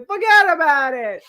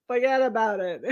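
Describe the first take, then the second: First: Put-on loud, high New Jersey Italian accent. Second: Put-on understated New Jersey Italian accent. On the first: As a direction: exclaim it as a hammy Jersey Italian. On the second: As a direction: toss it off as a Jersey Italian, amused. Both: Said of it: "You're like a New Jersey Italian".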